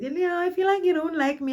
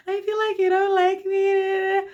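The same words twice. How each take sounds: First: Put-on high, teary drunken complaint; imitating her drunk self whimpering; drunk whining. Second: High, slow, sobbing whine; hammed-up weepy drunk complaint; drunken crying whine. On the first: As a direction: whine it like a weepy drunk. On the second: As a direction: wail it like a teary drunk.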